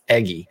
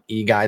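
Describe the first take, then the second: First: The name begins with 'eh' followed by 'gee'. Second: The name begins with 'ee' followed by 'guy'. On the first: The speaker calls it right. "the right pronunciation there. It's Eggy" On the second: The speaker calls it wrong. "I called him E-Guy the whole time. I'd never heard his name"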